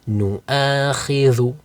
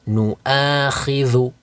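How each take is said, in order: No difference in how they are said.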